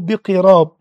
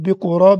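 First: The first vowel of the word is 'i'. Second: The first vowel of the word is 'u'. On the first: "كما تنطق بالكسر" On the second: "تنطق بالضم"

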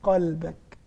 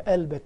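First: The first consonant is a uvular q. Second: The first consonant is a glottal stop. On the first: This is standard Arabic. "العربية افتح قلبك" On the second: This is the colloquial spoken dialect. "افتح لها قلبك بالدارجة، قلبك كده"

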